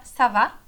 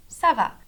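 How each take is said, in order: First: "ça va" rising sharply at the end; question intonation. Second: "ça va" falling at the end; answer intonation. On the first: Teacher demonstrating how to ask ça va, rising tune. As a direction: make "ça va" a question with rising pitch. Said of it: "com a entonação de pergunta". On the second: Teacher demonstrating how to reply ça va, falling tune. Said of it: "E pra responder". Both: Shown as a demonstration.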